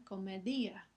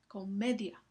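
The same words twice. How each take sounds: First: "comedia" as co-me-DI-a, ending in a hiatus; "comedia" with i and a split, DI stressed. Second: "Comedia" as co-ME-dia, stress on ME; "Comedia" stressed on ME, short gliding i; comedia with diphthong. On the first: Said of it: "Si la I llevara tilde". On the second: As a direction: glide the final ia together in "Comedia". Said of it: "es como se pronuncia". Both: Shown as a demonstration.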